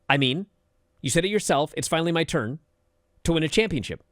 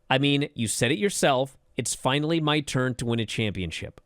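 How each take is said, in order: First: Each phrase ends with a stop, like separate sentences. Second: The phrases flow together in one natural sentence.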